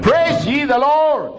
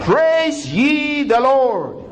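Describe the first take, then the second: First: High, slow ringing praise; praise call. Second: Very slow, high, stretched praise; slower praise call. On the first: Pastor calling the church to praise, high ringing call. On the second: Pastor repeating the call to praise, very slow and high. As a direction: draw every word out long and high. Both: Acted. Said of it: "repeated praise call".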